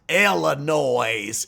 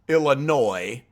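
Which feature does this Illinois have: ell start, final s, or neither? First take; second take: final s; neither. First: It ends with an audible S sound. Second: It starts with 'ill' and ends silently. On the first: The speaker calls it wrong. "you don't pronounce the S at the end" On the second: The speaker calls it right. "And I was born in Chicago"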